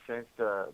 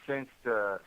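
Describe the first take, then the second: No difference in how they are said.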